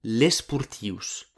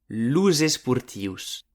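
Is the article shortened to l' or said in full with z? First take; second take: shortened; full z. First: The article is cut to a single l sound. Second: The full article links with a z sound. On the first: The speaker calls it wrong. "podem pas mai dire l'esportius" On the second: The speaker calls it right. "amb una S que sona com una Z"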